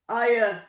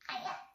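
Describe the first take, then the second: First: It is said in a big giant voice. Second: It is said in a small mouse voice.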